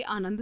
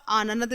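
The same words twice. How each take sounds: First: Said in the usual way. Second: "आनंद" stretched to aananad; extra syllable. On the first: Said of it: "आनंद सही होता है". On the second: Shown as a demonstration. Teacher reads the misspelling, "आनंद" as aananad. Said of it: "बल्कि आनंद सही होता है".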